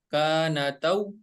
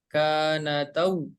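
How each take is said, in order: No difference in how they are said.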